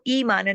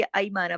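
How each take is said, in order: First: ई माना starting on a pure ee; long ee opening. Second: ऐ माना starting with an a-to-i glide; ya leen opening. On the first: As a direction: open ई माना with ee, no glide. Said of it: "इसको ई माना नहीं पढ़ेंगे". (ई माना, शुरू में सीधी ई) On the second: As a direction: open ऐ माना like Urdu gai. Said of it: "ऐ माना पढ़ेंगे।". (ऐ माना, कई जैसी ऐ से) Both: Shown as a demonstration.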